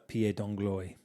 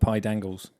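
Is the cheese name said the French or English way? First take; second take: French; English. First: The name is given a French-style pronunciation. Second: The name is said like English 'pie dangles'. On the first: "I don't know if my pronunciation is any good" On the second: "I call it pie dangles"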